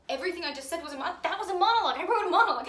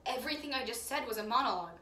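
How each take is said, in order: First: Building to a high, loud cry of triumph; faster, then much louder and higher; excited realization. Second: Said in the usual way. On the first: Acted. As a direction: burst out as it dawns on you. Sudden excited realisation, repeated louder.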